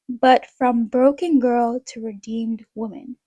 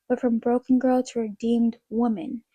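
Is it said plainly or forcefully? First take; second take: forcefully; plainly. First: It is said forcefully, with strong conviction. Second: It is said plainly, without extra force.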